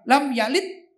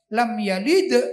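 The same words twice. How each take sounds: First: The final d ends without an echoing bounce. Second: The final d ends with an echoing bounce. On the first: The speaker calls it wrong. "bukan lam yalid" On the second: The speaker calls it right. "ah itu kol-kola, misalnya lam yalid, begitu"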